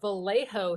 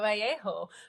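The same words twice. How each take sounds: First: The double L is said as an L sound. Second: The double L is said as a Y sound. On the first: This is how locals say the name. The speaker calls it wrong. "pronounced Vallejo here when you'll accept the J as an H sound, but you won't accept the double L as the Y sound" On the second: This follows Spanish pronunciation rules. The speaker calls it right. "So it should be a Vallejo"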